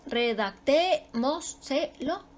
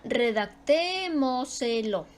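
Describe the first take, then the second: First: Redactémoselo slowly chopped into re-dac-té-mo-se-lo; syllable by syllable. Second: Redactémoselo with a long, prominent TÉ; stress on TÉ. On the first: Teacher locating the stress, redactémoselo slowly in separate syllables. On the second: Teacher giving an example word, stretching TÉ in redactémoselo. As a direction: lean on the TÉ in redactémoselo. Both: Shown as a demonstration. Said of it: "Ahí está su sílaba tónica".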